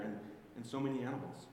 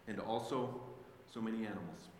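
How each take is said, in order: First: "And, and so many animals" tossed off fast and dismissively; fast, wry throwaway of the last line; quick mocking repeat. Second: "And also so many animals" read slowly and softly, each word set apart; quiet, deliberate reading of the last line; slow emphatic reading. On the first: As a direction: rattle it off like a punchline. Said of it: "Why else would God put it in there?". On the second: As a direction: linger on "so many animals" so it lands. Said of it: "Don't miss that last line". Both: Shown as a demonstration.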